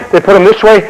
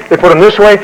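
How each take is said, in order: Both takes have the same delivery.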